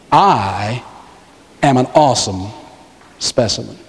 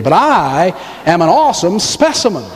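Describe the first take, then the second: First: Low, halting, phrase by phrase; measured prompting. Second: "I" and "awesome" leaned on in one flowing line; emphatic claim. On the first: Preacher leads congregation through "I am an awesome specimen", measured prompting. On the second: Preacher playfully claims to be an awesome specimen, emphatic claim. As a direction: run it together, stressing "I" and "awesome". Repeats the phrase as own claim. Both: Shown as a demonstration.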